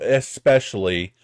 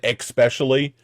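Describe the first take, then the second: First: The word begins with an 'es' sound. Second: The word begins with an 'ex' sound. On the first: The speaker calls it right. "So especially" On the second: The speaker calls it wrong. "There's no X in there. Why am I saying that?"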